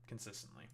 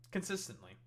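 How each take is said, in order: First: Consistently dropped low and much softer; second Consistently lower and fading; quiet echo. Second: Consistently said higher, punched out; first Consistently pitched up with a falling finish; emphatic repeat. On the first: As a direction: let Consistently fall away under the breath. Repeats the word as a soft echo. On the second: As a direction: hit Consistently hard and high. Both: Real, not acted.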